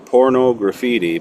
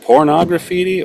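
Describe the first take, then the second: First: It is said as porno plus graffiti. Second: It is said like the word pornography. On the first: "or porno graffiti?" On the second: "is it pornography"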